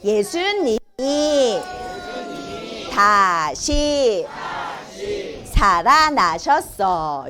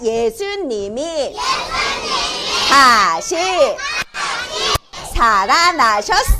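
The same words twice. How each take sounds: First: It is said at normal volume. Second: It is said more loudly.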